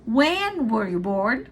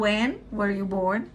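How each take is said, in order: First: Slow demo leaning on When; English teacher showing question intonation; stress on When. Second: Slow quieter When lifted, rest dropping; softly repeat, peak on When; teacher repeating the model question; stress on When. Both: Shown as a demonstration. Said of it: "a entonação mais alta tá no".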